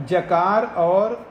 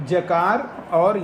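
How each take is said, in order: The two takes are said the same way.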